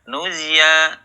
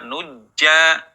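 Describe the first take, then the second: First: The middle consonant turns into a y sound. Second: The middle consonant is a j sound. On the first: "berubah menjadi ya" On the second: "tidak dibaca nujja"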